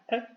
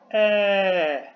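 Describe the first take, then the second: First: The vowel is cut short. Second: The vowel is held long. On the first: "Si es la versión corta" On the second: "Si es la versión larga"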